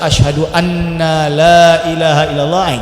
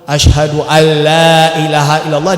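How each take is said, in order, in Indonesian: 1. Bunyi n dibaca sebelum bunyi l. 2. Bunyi n menyatu dengan bunyi l setelahnya.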